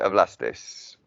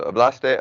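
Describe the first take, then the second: First: Hablastes with an s added at the end; hablastes, lower, closing on an extra s sound; added final s. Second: Said in the usual way. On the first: Shown as a demonstration. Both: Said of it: "always adding on the ending".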